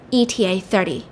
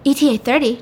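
First: E T A THIRTY with a falling end; E T A thirty, dropping at the end; read-out statement. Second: E T A THIRTY lifted as a question; E T A thirty? pitched up in doubt; puzzled question. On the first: Text read out, then questioned. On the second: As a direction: query E T A thirty with a higher voice. Character queries the text message. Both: Retold or imitated.

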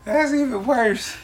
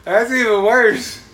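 First: High laughing, louder, slowed. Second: High, loud, slow laughing cry; laughing disbelief. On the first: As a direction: say it through laughter. Repeated while laughing. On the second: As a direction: crack up at a friend's fail. Laughing reaction to friend's fail. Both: Real, not acted.

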